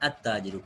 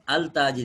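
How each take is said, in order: First: The L merges into a doubled T. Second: The L is pronounced before the T. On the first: The speaker calls it right. "अत्ताजिरु पढ़ रहे" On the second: The speaker calls it wrong. "अल ताजिर नहीं पढ़ रहे"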